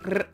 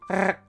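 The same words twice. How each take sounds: First: The R is rolled at the front of the mouth. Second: The R is rolled at the back of the mouth. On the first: "Some do it at the front of their mouth" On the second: "or some do it at the back of their mouth"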